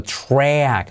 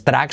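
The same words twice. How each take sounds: First: TRACK drawn out with a rounded U colour in the "tr"; slow "chrwack", open vowel in TRACK; corrected pronunciation. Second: TRACK said with a plain Spanish-style "tr"; wrong pronunciation. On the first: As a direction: model TRACK slowly with a hidden U. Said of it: "sino track". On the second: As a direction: say "track" with no U sound after the T. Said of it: "no es track". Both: Shown as a demonstration.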